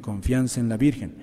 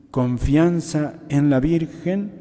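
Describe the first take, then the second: First: Said in the usual way. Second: "Confianza en la Virgen" slowed right down and pitched higher; emphatic repetition. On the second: Real, not acted. Preacher urging the faithful to trust the Virgin, emphatic repetition. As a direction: stretch out "Confianza en la Virgen", higher and deliberate, rising at the end.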